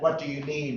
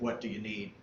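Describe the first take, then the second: First: It sounds warm and eager to help. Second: It sounds cold and suspicious, like questioning an intruder.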